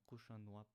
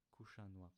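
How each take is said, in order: First: Kushanwap opening on the harder q, not plain k; original Arcanian q. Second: Kushanwap opening on an ordinary English k; simplified k. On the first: Teacher gives the word for thank you, kushanwap with q. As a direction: begin kushanwap with the difficult Arcanian q. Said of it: "if you don't know how to say the k sound". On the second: Teacher offers learners an easier thank you, kushanwap with plain k. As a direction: begin kushanwap with an easy plain k. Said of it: "you can just say". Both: Shown as a demonstration.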